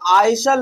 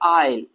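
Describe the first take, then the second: First: The word is said with an s sound. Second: The word is said without an s sound. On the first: The speaker calls it wrong. "आइसल नहीं पढ़ा जाएगा" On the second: The speaker calls it right. "बल्कि हम क्या पढ़ेंगे भैया, आइल"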